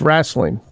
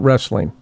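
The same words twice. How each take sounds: First: The word has a Southern regional pronunciation. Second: The word has a non-Southern pronunciation. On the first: This is how it is said in the South. "I know a lot in the South, it's wrestling" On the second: This is how it is said outside the South. "not wrestling"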